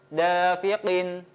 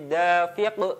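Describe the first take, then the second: First: The word ends with a vowel and n. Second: The word ends on a stopped consonant.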